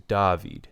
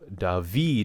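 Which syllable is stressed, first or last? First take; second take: first; last. First: The stress is on the first syllable. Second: The stress is on the last syllable. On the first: "as opposed to" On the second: "the accent goes on the final syllable"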